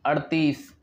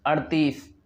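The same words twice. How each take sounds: The two takes are said the same way.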